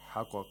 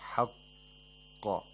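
First: The qaf is released without any hold. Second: The qaf is held briefly, then released. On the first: The speaker calls it wrong. "We don't say haqqa" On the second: The speaker calls it right. "The first qaf is hell, the second qaf is released with qalqala"

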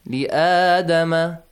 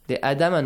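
First: The alif vowel is held for two counts. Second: The alif vowel is cut short. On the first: The speaker calls it right. "right? Two counts" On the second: The speaker calls it wrong. "Sometimes we forget that alif, okay? ... no"

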